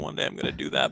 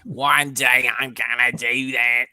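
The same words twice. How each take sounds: First: It is said in a plain, ordinary accent. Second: It is said in a put-on New Zealand accent.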